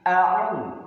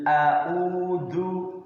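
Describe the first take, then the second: First: "a'u" with a throaty ain stop, louder; ain sound. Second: "a'udzu" said with a plain au, the wrong way; wrong reading. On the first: Teacher correcting the pupil, firm throaty a'u. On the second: Teacher showing the wrong way, careless au. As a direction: read "a'udzu" sloppily with a flat au. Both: Shown as a demonstration.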